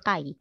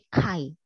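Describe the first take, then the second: First: The first consonant has no puff of air. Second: The first consonant has a puff of air. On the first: The speaker calls it wrong. "Bukan Kai" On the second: The speaker calls it right. "tapi Kai gitu dibacanya"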